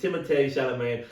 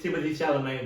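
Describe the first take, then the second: First: The first name is said the French way. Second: The first name is said the English way. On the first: The speaker calls it right. "but it's Timothée Chalamet" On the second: The speaker calls it wrong. "People try to can seem to not pronounce say Timothy Chalamet"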